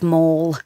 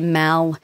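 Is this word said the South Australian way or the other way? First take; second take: other; South Australian. First: It is said with the usual non-South Australian vowel. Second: It is said with the South Australian vowel. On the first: "instead of mall" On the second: "South Australians, excuse me, will say mal"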